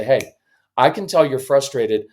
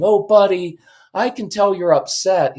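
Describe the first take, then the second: First: Matter-of-fact. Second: Higher, cooing sympathy; condescending sweetness. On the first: Dad walking in on upset son, matter-of-fact. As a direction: state it plainly, man to man. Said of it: "even matter-of-fact tone". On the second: Parent to yelling son, condescending sweet sympathy. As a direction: coo it weakly, over-sympathetic. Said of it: "it sounds condescending and weak". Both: Shown as a demonstration.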